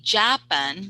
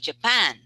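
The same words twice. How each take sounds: First: The stress is on the first syllable. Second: The stress is on the second syllable. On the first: The speaker calls it wrong. "you are putting the stress on the first syllable ja" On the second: The speaker calls it right. "you're putting the stress on the second syllable"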